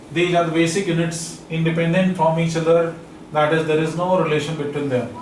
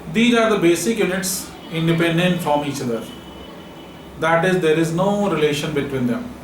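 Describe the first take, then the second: Both takes have the same delivery.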